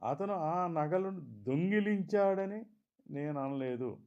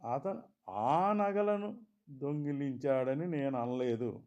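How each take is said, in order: First: The stress falls on the word దొంగిలించాడని. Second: The stress falls on the word ఆ. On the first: He took them for another reason. "సరదాకో చూసి ఇవ్వడానికో మరెందుకో తీసుకున్నాడన్నట్లు" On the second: "ఇంకేవో నగలు దొంగిలించాడన్నట్లు"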